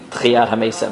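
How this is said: It mixes Ashkenazi and Sephardi pronunciation. The speaker calls it wrong. "not a mix"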